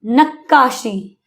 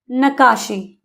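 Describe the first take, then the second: First: नक्काशी slowly, holding the doubled kk; नक्काशी drawn out with a held double k. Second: नकाशी with a single short k; नकाशी said as if spelt with one k. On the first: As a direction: stretch नक्काशी and lean on the kk. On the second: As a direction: say नकाशी quickly, no doubled consonant. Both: Shown as a demonstration.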